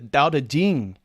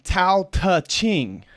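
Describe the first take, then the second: First: The title begins with a D sound. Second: The title begins with a T sound. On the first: The speaker calls it right. "It's Dao De Jing" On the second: The speaker calls it wrong. "No, that's not how you pronounce it in Chinese"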